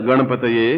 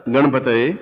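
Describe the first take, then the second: No difference in how they are said.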